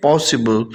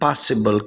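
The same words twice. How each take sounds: First: "possible" with a rounded O, "POSS-ible"; British pronunciation. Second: "possible" with an open "ah", like "PAH-sible"; American pronunciation. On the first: Teacher repeats the UK version for students, British pronunciation. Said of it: "او اور آ کا جو ہے نا آواز کا فرق ہے". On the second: Teacher contrasts the American version for students, American pronunciation. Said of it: "جبکہ امریکن اس کو possible کہتے ہیں". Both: Shown as a demonstration.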